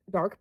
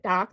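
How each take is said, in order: First: "Dark" said as Boston "Doc", broad open vowel; Boston accent, "Dark" with a long ah vowel. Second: Said in the usual way. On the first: Retold or imitated. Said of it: "like, in the Boston accent".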